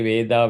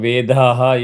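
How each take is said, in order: First: The d sound is plain, without aspiration. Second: The d sound is breathy and aspirated. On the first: The meaning is completely different. The speaker calls it wrong. "you will say Veda, Veda, Da, Da" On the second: The word means the creator and ordainer. The speaker calls it right. "the correct pronunciation"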